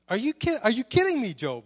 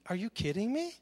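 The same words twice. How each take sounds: First: Higher and louder, sarcastic "are you kidding me"; mock-exasperated God, louder and higher; sarcastic exasperation. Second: Dry, sarcastic "are you kidding me"; mock God's incredulity lightly; an understated sarcastic jab; sarcastic disbelief. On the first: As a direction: push the disbelief up, half-shouting. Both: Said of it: "the sarcasm in here".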